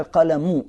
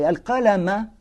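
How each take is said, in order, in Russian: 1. Слово заканчивается на гласную u. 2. Слово заканчивается на гласную a. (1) "когда «аль-каляму», а не «аль-каляма»" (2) "Если читать с «фатхой» «аль-каляма»"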